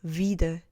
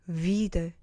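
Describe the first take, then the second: The two takes are said the same way.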